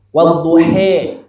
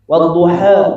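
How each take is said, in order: First: The final vowel sounds like a weak 'e'. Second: The final vowel is a full, open 'a'. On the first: The speaker calls it wrong. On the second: The speaker calls it right.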